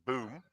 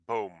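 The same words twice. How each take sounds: First: The vowel is a long 'oo' sound. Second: The vowel is an 'oh' sound, as in comb. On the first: The speaker calls it wrong. "you don't pronounce it boom, as many do" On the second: The speaker calls it right. "in Dutch, you say boom, like in a comb"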